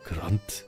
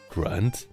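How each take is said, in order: First: The name is said with a German accent. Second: The name is said with an English accent. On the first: "a German way of like grand, grand would be good" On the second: "Or like in English it would be grand"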